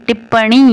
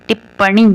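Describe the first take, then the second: Both takes have the same delivery.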